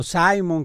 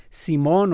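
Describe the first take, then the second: First: "Simon" said the English way, SAI-mon; English pronunciation. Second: "Simón" said the Spanish way, stress on the last syllable; Spanish pronunciation. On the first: Anchor offering listeners either name for the storm, "Simon" in English pronunciation. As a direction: say "Simon" with an English first syllable, like "sigh". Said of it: "como se pronuncia en inglés". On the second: Anchor offering listeners either name for the storm, "Simón" in Spanish pronunciation. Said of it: "como usted le quiera decir". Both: Shown as a demonstration.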